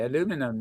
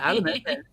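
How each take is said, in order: First: It is said the American way. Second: It is said the British way.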